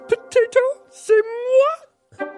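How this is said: It is said in a Miss Piggy voice.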